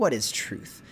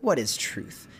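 First: The question is asked in a mocking way. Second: The question is asked in a mocking way.

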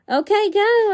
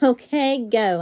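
First: It is said more loudly. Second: It is said at normal loudness.

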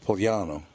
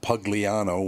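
First: The name is said with Italian pronunciation. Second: The name is said with English pronunciation. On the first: "It's Pugliano" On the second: "which is not the Italian way to say it"

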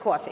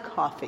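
First: It is said with a New York accent. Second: It is said with a general accent.

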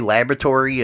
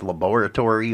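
First: It is said with an American pronunciation. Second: It is said with a European pronunciation. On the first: "when you say laboratory in the United States" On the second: "it's laboratory over in Europe"

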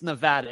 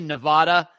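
First: The middle A is said as a hard A. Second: The middle A is said as a soft A. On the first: The speaker calls it right. "It's a hard A, not a soft A" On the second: The speaker calls it wrong. "That's not right"

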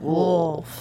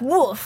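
First: The word is said low and deep. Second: The word is said with lots of energy. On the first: "I have to get deep for" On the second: "like lots of energy"

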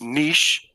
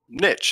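First: It is said the original French way. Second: It is said the American way. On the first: "the original French pronunciation is niche" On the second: "it's also called niche in the States"

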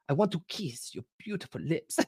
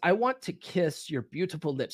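First: It is said in an imitated Italian accent. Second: It is said in the speaker's ordinary accent.

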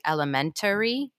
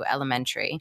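First: The word is said with five syllables. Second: The word is said with four syllables. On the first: "Is there supposed to be a whole other vowel slash syllable in there?" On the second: "I say elementary, and I noticed that you said it in the beginning too"

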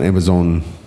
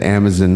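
First: The last syllable sounds like 'zon'. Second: The last syllable sounds like 'zin'. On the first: "not Amazon" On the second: "Why do you put the Zin in there?"

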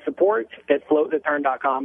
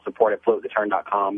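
First: It is said at a slow pace. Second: It is said at a fast pace.

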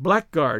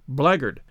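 First: Both parts are said fully, as spelled. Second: The middle sounds merge into a short 'blaggard'. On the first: The speaker calls it wrong. "isn't pronounced as it is spelt" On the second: The speaker calls it right. "It's pronounced blackguard"

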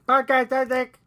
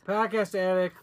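First: It is said in a put-on alien voice. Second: It is said in a Boston-like accent.

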